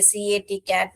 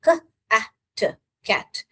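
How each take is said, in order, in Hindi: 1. हर अक्षर को उसके वर्णमाला-नाम से बोला जाता है। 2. हर अक्षर को उसकी ध्वनि से बोला जाता है।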